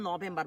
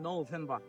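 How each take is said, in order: First: Said in Bangladeshi English with a plain first vowel. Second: Said in American English with a gliding first vowel. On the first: The speaker calls it wrong. "দেখিয়েন আমরা নভেম্বর বলি" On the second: The speaker calls it right. "মানে নৌকার মতো নভেম্বর"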